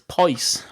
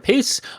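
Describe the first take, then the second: First: The vowel is long, as in 'ice'. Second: The vowel is short, as in 'kiss'. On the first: The speaker calls it wrong. "or it's pice, uh, which is wrong. For pice, it would be P I C E" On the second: The speaker calls it right. "It's either piss"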